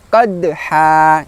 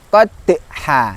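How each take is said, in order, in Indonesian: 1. Huruf q dilepas hanya dengan pantulan singkat. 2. Huruf q dilepas dengan vokal tambahan uh. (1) "Sekedar dipantulkan saja" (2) "Jangan sampai terdengar uh... Keliru"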